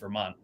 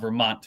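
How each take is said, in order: First: The final T sound is left out. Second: The final T sound is clearly pronounced. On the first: This is how locals say it. "Vermonters don't pronounce our T's" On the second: This is how outsiders say it. "It's not Vermont for us"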